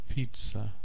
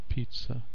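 Both takes have the same delivery.

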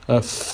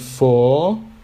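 First: It is short and quick with a reduced vowel. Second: It is stressed with a full, long vowel. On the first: The speaker calls it right. "we make it shorter, we say it in a quick way without a stressed vowel sound" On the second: The speaker calls it wrong. "rather than for"

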